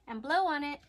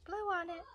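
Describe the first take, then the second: First: Said in the usual way. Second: Put-on a lightly higher, sing-song coaching voice for little kids; preschool teacher voice. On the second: Teacher to her preschoolers, a gently higher sing-song nudge. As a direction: coax the little ones to blow. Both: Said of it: "That's what I tell my preschoolers".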